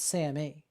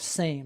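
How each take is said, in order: First: It does not sound like the word 'same'. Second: It sounds like the ordinary word 'same'. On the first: The speaker calls it right. "It's SAMe" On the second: The speaker calls it wrong. "She said it wrong, though. Not same"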